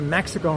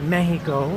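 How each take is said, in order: First: It is said with an English pronunciation. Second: It is said with a Spanish pronunciation. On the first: This is the name used when speaking English. The speaker calls it right. "you don't go to Mexico" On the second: This is the local name used in the country. The speaker calls it wrong. "and call it Mexico"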